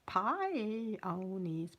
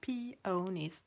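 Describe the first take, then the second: First: The first syllable sounds like 'pie'. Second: The first syllable sounds like 'pee'. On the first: The speaker calls it wrong. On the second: The speaker calls it right.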